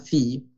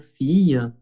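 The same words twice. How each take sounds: First: The word ends without a final vowel sound. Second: The word ends with a soft added vowel sound. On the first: "Si no, fille" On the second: "a veces cuando exageramos un poquito, fille, así, pero es con la E francesa"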